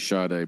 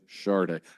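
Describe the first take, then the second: First: The name is said without an R sound. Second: The name is said with an R sound. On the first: The speaker calls it wrong. "I say Sade" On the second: The speaker calls it right. "but it's actually Sade. There's an R sound in there"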